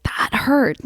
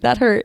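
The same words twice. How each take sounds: First: Whimpering in pain. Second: Said in the usual way. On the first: Retold or imitated. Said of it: "I was like".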